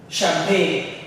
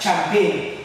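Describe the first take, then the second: First: The word begins with a soft 'sh' sound. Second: The word begins with a hard 'ch' sound. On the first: The speaker calls it right. "but it's sh" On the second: The speaker calls it wrong. "You would want to pronounce it as champagne"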